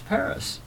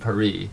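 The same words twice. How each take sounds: First: Paris is said with a plain American pronunciation. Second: Paris is said with an affected French pronunciation. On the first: This is the ordinary way to say it. The speaker calls it right. "you think, it's Paris" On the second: The speaker sounds pretentious. The speaker calls it wrong. "it can sound a little pretentious"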